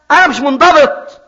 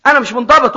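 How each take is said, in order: First: Emphatic. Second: Said in the usual way. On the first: Shown as a demonstration. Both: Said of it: "repeated take".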